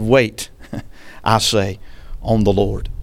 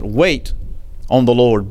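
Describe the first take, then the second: First: Wait drawn out slow and low, then I say; slow, weighty Wait, lingering before on the Lord; double emphasis on Wait. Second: Said in the usual way. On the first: Shown as a demonstration. Preacher repeating David's line with a slow, heavy Wait. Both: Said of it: "David put a double emphasis".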